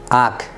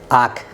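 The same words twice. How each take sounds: The two takes are said the same way.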